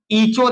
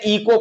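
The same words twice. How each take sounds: First: ईचो with a ch sound in the middle; ईचो, the spelling read with च instead of क; CH mispronunciation demo. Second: इको with a k sound in the middle; इको, with क in place of च; K pronunciation demo. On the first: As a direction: say echo wrongly as ईचो, with ch. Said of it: "ईचो नहीं पढ़ते हैं". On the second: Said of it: "इको पढ़ते हैं". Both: Shown as a demonstration.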